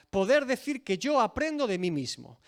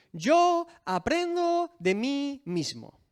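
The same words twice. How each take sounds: First: Said in the usual way. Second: Slow, higher, smug self-satisfied tone; mock the arrogant claim, drawn out; arrogant mock quote. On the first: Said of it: "la frase más arrogante". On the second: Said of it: "la frase más arrogante y absurda". (cita burlona y arrogante, lenta)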